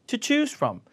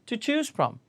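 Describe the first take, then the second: No difference in how they are said.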